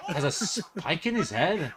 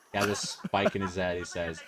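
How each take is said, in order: First: High, incredulous question through laughter; laughing disbelief. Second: Said in the usual way. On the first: Real, not acted. Viewer echoing the man's odd words, laughing in disbelief. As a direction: repeat it cracking up, unable to believe it.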